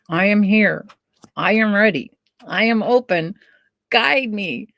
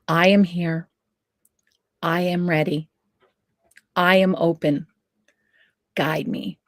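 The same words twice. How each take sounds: First: It is said through tightly clenched teeth. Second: It is said with an open, relaxed mouth.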